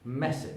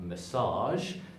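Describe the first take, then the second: First: The stress is on the first syllable. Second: The stress is on the second syllable. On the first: The speaker calls it right. "the first part is the pushed part of the word" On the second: The speaker calls it wrong. "It's not"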